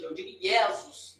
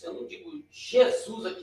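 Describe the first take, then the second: First: Jesus said ie-zus with an i glide; Jesus, ie-ZUS, no zh sound; Greek pronunciation. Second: Jesus, zhe-ZUS, Portuguese J; plain Portuguese pronunciation. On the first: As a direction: contrast Jesus, now Greek style. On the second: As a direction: say Jesus the everyday Brazilian way. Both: Shown as a demonstration.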